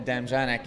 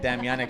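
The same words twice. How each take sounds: First: The name is said with an English pronunciation. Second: The name is said sounding like 'Dominic'. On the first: An outsider's version of the name. The speaker calls it wrong. "I've been going with the gringo pronunciation" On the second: The local version of the name. The speaker calls it right. "You've been pronouncing it"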